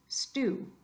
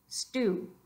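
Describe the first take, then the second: The two takes are said the same way.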